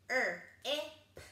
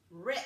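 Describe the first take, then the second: First: R-I-P as er, short i, popped P; chopped-up sounds. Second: Said in the usual way. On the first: Shown as a demonstration. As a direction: separate the sounds of R-I-P with pauses. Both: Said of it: "and chop it up".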